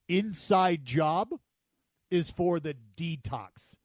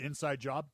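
First: It is said slowly. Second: It is said at normal speed.

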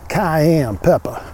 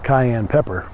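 First: It is said in a put-on Cajun accent. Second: It is said in the speaker's ordinary accent.

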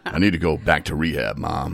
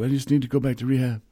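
First: The voice is deep, manly and sexy. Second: The voice is weak and whiny, not manly.

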